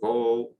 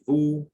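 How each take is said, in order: First: The vowel is an o sound. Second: The vowel is an unrounded back oo sound. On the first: "or vo" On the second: "we don't say vous"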